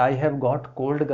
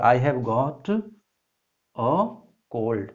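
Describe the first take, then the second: First: Said in the usual way. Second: "I have got a cold" with a pause before "a"; careful corrected read; corrected, slow. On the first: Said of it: "wrong है". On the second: Shown as a demonstration. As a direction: stretch it out and land on "a cold". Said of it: "यहाँ पर क्या होगा".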